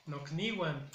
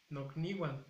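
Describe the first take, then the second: First: "nocniwan" con "k" marcada, "nokniwan"; pronunciación clara. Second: "Nocniwan" repetido más suave, "nokniwan"; pronunciación repetida. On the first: ("nocniwan" dicho "nokniwan" con bajada final) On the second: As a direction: repite "Nocniwan" con calma. ("Nocniwan" repetido en voz más baja) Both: Shown as a demonstration. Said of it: "Otra palabra es".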